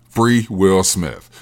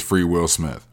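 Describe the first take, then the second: First: Each word drawn out like a chant; slow emphatic slogan. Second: Said in the usual way. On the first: Shown as a demonstration. Comic on stage, repeating his slogan, slow and deliberate. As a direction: spell the slogan out slowly.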